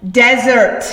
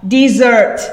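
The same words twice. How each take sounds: First: "desert" stressed first, DEZ-ert; "desert" with a short e, stress up front; desert as barren land. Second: "desert" stressed second, de-ZERT; "desert" as in running away; desert as in leave. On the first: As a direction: say "desert" like the sandy place. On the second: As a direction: say "desert" like desserts, stress at the end. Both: Shown as a demonstration. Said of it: "Same spelling, but desert".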